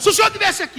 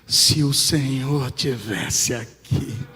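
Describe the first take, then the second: First: It is shouted loudly. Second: It is said softly, as if crying.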